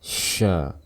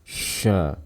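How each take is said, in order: No difference in how they are said.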